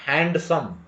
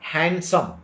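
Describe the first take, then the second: First: The D sound is pronounced. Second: The D sound is left out. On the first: The speaker calls it wrong. "ನಾಟ್" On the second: The speaker calls it right. "D is not pronounced"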